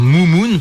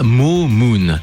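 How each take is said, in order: First: The first vowel is an 'oo' sound. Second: The first vowel is a long 'o' sound. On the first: This is the usual French reading of the spelling. "en France on a le réflexe de dire Moumoun" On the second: This may be how it is said in Japan. "au Japon ça se prononce pas Momoon"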